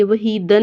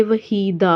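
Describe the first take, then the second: First: वहीदन closed with an n sound; wrong "an" ending. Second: वहीदा ending on an open "daa". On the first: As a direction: end वहीदन on "-dan". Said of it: "ये वहीदन नहीं होगा". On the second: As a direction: drop the n and finish वहीदा on a vowel. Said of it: "ये वहीदा होगा". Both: Shown as a demonstration.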